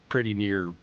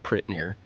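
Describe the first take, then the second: First: The word 'pretty' is said in full. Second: The word 'pretty' is shortened to 'prit'. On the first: The speaker calls it wrong. "you certainly don't say" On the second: The speaker calls it right. "or or uh"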